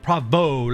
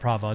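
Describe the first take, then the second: First: The name ends in an 'oh' vowel. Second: The name ends in an 'ah' vowel. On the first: The speaker calls it right. "Pravo. Like um, uh, almost like Italian" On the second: The speaker calls it wrong. "Not Prava. Not with an A"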